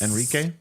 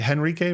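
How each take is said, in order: First: The name begins directly with a vowel. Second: The name begins with an H sound. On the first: The speaker calls it right. "no H" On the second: The speaker calls it wrong. "Do you say the H or no H?"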